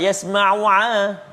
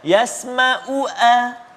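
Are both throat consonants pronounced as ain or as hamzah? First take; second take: ain; hamzah. First: Both consonants are the mid-throat ain sound. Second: Both consonants are the glottal hamzah stop. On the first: "dua-dua kalimah ain" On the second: "dua-dua hamzah pula"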